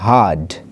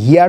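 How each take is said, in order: First: The vowel sounds like the one in 'her'. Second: The vowel sounds like the one in 'here'. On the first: The speaker calls it right. "এটা হবে হার্ড" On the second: The speaker calls it wrong. "এটা উচ্চারণ হিয়ার্ড হবে না"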